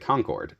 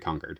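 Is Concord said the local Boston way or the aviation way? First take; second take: aviation way; Boston way. First: It is said the way the jet is named. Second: It is said the local Boston-area way. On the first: It names the supersonic jet. "if you ask me how to pronounce the jet" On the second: It names the Massachusetts town. "people around here would call it Concord"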